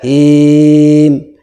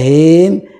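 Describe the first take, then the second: First: The vowel is held for six beats. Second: The vowel is held for four beats. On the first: "bisa enam harokat" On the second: "bisa empat"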